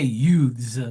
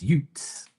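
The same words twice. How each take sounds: First: "youths" with a voiced th ending; standard pronunciation. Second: "Utes" as yoots, hard T; slang pronunciation. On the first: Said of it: "So they don't say youths". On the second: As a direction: say "Utes" with a crisp T before the S. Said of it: "it's Utes". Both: Shown as a demonstration.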